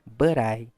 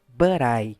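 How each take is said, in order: No difference in how they are said.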